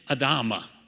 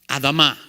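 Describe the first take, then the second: First: It is said with an English pronunciation. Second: It is said with a Hebrew pronunciation. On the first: "Or as we would say it in English" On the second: "That's how you say it in Hebrew"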